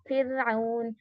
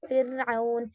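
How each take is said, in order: The two takes are said the same way.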